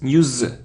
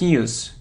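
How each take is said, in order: First: The word ends with a z sound. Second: The word ends with an s sound. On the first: The speaker calls it right. "it's news, z" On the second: The speaker calls it wrong. "It isn't news"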